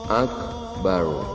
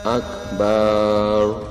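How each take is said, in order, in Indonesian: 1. Vokal setelah b itu pendek. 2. Vokal setelah b dibaca panjang. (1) "harus pendek" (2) "Ketika dibaca panjang"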